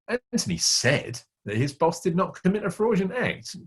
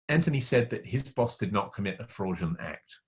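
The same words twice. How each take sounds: First: The word "said" carries the main stress. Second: No word stands out; the delivery is neutral. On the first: The boss probably did it despite the denial. "He said he didn't do it, but the meaning is probably he did" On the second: No opinion is conveyed. "I haven't given you any information about what I think or what I feel"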